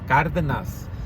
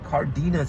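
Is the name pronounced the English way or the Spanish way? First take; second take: Spanish; English. First: The name is said with Spanish-style sounds. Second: The name is said with English-style sounds. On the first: The speaker calls it right. "it's Cardenas" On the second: The speaker calls it wrong. "it's not Cardenas"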